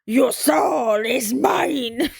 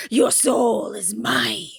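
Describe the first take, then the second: First: Very slow villain line, cracking up; villain impression breaking into laughter. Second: Very slow, menacing villain line; menacing villain impression. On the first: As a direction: try to stay sinister but laugh through it. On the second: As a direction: drag each word out like a sinister sorcerer. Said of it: "Wait, I can do this".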